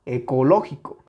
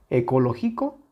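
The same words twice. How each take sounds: First: Ecológico with a strong beat on LO; stress on tonic syllable. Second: Ecológico said as ecolo-GI-co, rising; stress removed. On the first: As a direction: punch LO in ecológico. (ecológico con intensidad en LÓ) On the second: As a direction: put the weight of ecológico on GI. (ecológico acentuado en GI, como ecologíco) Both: Shown as a demonstration. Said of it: "Sí notan la diferencia".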